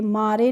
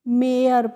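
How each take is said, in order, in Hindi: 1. यह दो अक्षरों में बोला जाता है, 'mah-ray'। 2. यह 'air' से तुक मिलाते हुए एक अक्षर में बोला जाता है। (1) "मारे नहीं पढ़ेंगे" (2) "तो इसे हम मेयर पढ़ेंगे"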